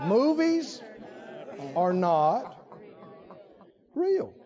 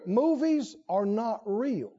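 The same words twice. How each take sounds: First: It is said very slowly. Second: It is said at a normal pace.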